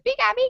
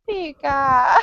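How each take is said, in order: First: It sounds happy and cheerful. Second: It sounds sad and disappointed.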